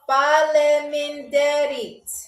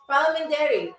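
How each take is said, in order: First: The word is said slowly. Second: The word is said at normal speed.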